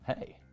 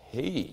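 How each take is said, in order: First: The greeting sounds relaxed and confident. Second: The greeting sounds tense and nervous.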